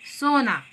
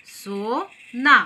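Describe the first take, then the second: First: Said in the usual way. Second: सोना very slowly, split as सो, ना; सो... ना, joined slowly for learners; syllable by syllable. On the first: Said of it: "तो ये दो अक्षर वाले शब्द". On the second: Shown as a demonstration. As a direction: sound out सोना in two separated, drawn-out syllables. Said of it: "शब्दों को हमने किस तरह से जोड़ा है".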